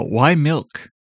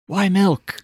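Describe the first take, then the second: First: Said in the usual way. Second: Higher, exasperated why milk; puzzling over the milk trademark, asks again higher; higher incredulous repeat. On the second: Real, not acted.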